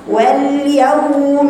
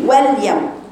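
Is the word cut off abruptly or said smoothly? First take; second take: smooth; abrupt. First: The word flows smoothly without a cut. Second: The word is cut off abruptly. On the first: The speaker calls it right. "صوتها طويل تاخديها بسلاسة" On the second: The speaker calls it wrong. "ما تقطعيش وتقولي"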